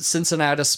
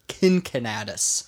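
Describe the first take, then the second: First: The name begins with a soft S sound. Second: The name begins with a hard K sound. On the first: "I'm going to pronounce it Cincinnatus" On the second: "could be actually probably pronounced Kincinnatus"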